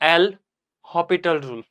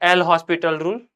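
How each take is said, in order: First: The s sound in the name is silent. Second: The s sound in the name is pronounced. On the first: "ये जो एस है ना, उसको silent करके भी बोलते हैं" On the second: "एक होता है एल हॉस्पिटल रूल"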